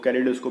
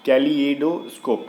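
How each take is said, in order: First: The word is said quickly and run together. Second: The word is said slowly with each part clear. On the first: The speaker calls it wrong. "जब हम लोग जल्दी से बोल देते तो समझ में नहीं आता" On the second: The speaker calls it right. "ऐसे करके बोलते हैं"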